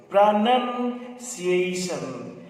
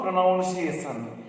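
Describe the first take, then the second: First: "Pronunciation." very slowly as pra-NUN-see-ay-shun; correct pronunciation. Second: "pronunciation" with the "nounce" sound, pro-NOUNCE-ee-ay-shun; wrong pronunciation. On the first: Teacher drilling the correct form for students, slow "Pronunciation.". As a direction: spell out "Pronunciation." syllable by syllable, no "nounce". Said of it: "Rather, you should say pronunciation". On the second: Teacher showing the class the mistake, a wrong "pronunciation". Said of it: "Rather, you should say". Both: Shown as a demonstration.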